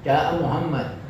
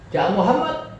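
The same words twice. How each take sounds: First: The pitch falls at the end. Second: The pitch rises at the end. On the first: It is a plain statement. "turun dia" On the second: It is a question. "nah itu naik. Ya, musiknya naik, intonasinya naik"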